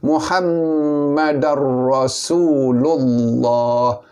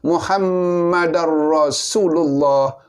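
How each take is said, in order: First: It is said slowly, with long vowels. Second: It is said very fast, with short vowels. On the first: The speaker calls it right. "Kita kena baca satu-satu" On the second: The speaker calls it wrong. "cepat sangat, laju"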